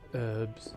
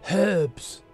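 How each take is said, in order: First: The word begins with a vowel, no h sound. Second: The word begins with an audible h sound. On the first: The speaker calls it wrong. "all you Americans who pronounce it herbs" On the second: The speaker calls it right. "there's a H at the front"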